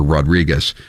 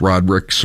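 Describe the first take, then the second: First: Rodriguez with a full -ez last syllable; alternative pronunciation. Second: Rodrigues with no separate -ez ending; local pronunciation. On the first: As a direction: say Rodriguez the Spanish way. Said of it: "depending on how you pronounce it". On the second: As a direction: say Rodrigues the short, anglicised way. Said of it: "Taylor's area pronounces it". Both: Shown as a demonstration.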